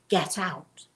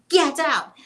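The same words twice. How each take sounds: First: It is said at a quiet, normal level. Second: It is yelled very loudly.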